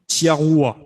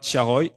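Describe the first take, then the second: First: The name ends with a 'wa' sound. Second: The name ends with an 'oy' sound. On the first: This is how someone else mispronounced the name. The speaker calls it wrong. "elle dit Tiaroua" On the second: This is how the name should be pronounced. The speaker calls it right. "elle dit pas Tiaroy"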